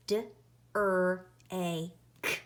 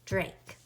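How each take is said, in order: First: "D R A K" as four separate sounds; sounded out. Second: Said in the usual way. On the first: Shown as a demonstration. Teacher tapping out Drake for pupils, sounded out. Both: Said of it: "pound and tap out Drake".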